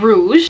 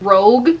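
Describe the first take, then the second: First: The word is said like 'rouge', with a soft ending. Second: The word is said like 'rogue', with a hard g. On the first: The speaker calls it right. "it's actually called Rouge" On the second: The speaker calls it wrong. "I pronounced this wrong"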